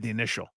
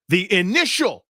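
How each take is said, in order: First: The word initial is said without emphasis. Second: The word initial is strongly emphasized. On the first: "It's not like he said the initial" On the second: "he put the emphasis on initial"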